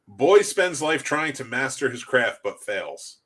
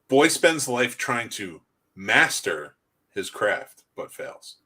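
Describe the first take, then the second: First: No single word is given special stress. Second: The word master is given strong stress.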